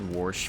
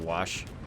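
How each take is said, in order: First: It is said with a regional pronunciation. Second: It is said with a standard pronunciation.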